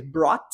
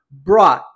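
First: "brought" with the T clearly released; "brought" as "brawt", closing on a T; sounded final T. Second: "brought" as "braw", T swallowed; "brought" ending on the open vowel, no T; hidden final T. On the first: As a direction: finish "brought" on an audible T. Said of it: "pronunciar com o som de T". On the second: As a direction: hide the T at the end of "brought". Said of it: "escondo o som do T". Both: Shown as a demonstration.

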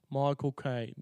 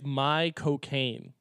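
First: Quick Cockney "Michael Caine", run together like "my cocaine"; a light Michael Caine London accent, said fast. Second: "my cocaine" said slowly, word by word; drawn-out "my cocaine", each syllable apart. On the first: Mimicking the actor's London accent for friends. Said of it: "sounds like saying Michael Caine in his accent". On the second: To his friends, spelling out "my cocaine" slowly. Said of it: "if you say it very quickly". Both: Shown as a demonstration.

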